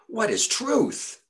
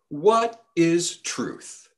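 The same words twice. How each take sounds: First: The question is asked in a mocking, scornful tone. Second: The question is asked in a plain, neutral tone.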